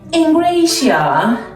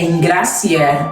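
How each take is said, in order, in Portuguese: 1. O nome é dito com sotaque inglês. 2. O nome é dito com sotaque português. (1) "como os ingleses pronunciam o meu nome" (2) "O meu nome é Engrácia"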